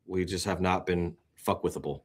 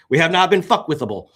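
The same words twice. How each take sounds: First: Said in the usual way. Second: "fuckwithable" punched higher and louder; stressed declaration. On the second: Real, not acted. Host proudly declaring his coin's strength, loud and emphatic. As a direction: slam it down like a slogan. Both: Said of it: "This is the word I'm gonna use".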